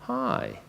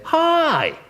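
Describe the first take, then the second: First: Low, soft, unwelcoming hi; a dull greeting that shuts them out; a cold, grudging hello; flat low hi. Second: Very high, loud, cheerful hi; a sunny, welcoming hello; bright high hi. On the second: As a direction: greet them with a big lifted hi. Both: Shown as a demonstration. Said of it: "that's not the same as".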